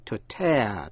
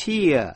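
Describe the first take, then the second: First: "tear" rhyming with "air", the ripping word; "tear" pronounced like "tare"; tear as TAIR. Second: "Tear" rhyming with "ear", the crying word; "Tear" pronounced like "tier"; tear as TEER. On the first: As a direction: say "tear" with an open "eh" vowel. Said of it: "đọc là to tear". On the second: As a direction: say "Tear" with an "ee-uh" vowel glide. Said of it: "phát âm nhiều cách". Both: Shown as a demonstration.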